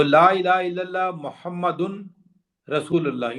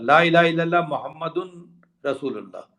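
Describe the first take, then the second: First: محمدن said with a full "dun" before رسول اللہ, slowly; محمدن رسول اللہ as spelled on the page; as written, with tanween. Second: محمد joined straight onto رسول with no "un" sound; محمد رسول اللہ, the tanween dropped in speech; as usually read. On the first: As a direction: read the written form, voicing the "un" on محمدن. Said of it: "یوں لکھا ہوتا ہے". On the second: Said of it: "لیکن ہم پڑھتے ہیں محمد الرسول اللہ". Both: Shown as a demonstration.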